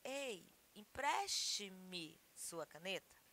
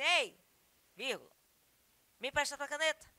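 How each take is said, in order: First: "empreste-me" said slower and softer, carefully; correct form. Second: Everyday "Ei, me empresta tua caneta", a bit louder; casual request. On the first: Teacher to students, modelling the correct form, slow. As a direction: lay out "Ei, empreste-me sua caneta" with care. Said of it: "mais correto seria". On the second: Teacher to students, acting casual speech, lightly voiced. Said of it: "vai pedir uma caneta emprestada". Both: Shown as a demonstration.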